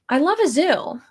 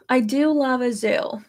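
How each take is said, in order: First: Said in the usual way. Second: "do" stressed as an emphatic confirmation. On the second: Real, not acted. Streamer insisting to viewers she loves zoos, stress on "do". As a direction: lean on "do" to insist it's true.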